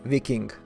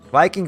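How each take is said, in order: First: It is pronounced letter by letter, Latvian style. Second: It is pronounced the usual English way.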